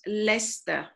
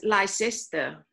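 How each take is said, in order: First: The word is said in a shortened form. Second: Every written syllable of the word is pronounced. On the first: This is how local people actually say it. The speaker calls it right. "but they pronounce Leicester" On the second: This is how the spelling suggests it is said. The speaker calls it wrong. "So spelling, you should, you know, pronounce as Leicester"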